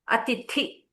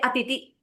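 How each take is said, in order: First: The second t is said with aspiration. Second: The second t is said without aspiration. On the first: The speaker calls it right. "you have to uh, aspirate the second tha" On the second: The speaker calls it wrong. "you say atiti instead of saying atithi"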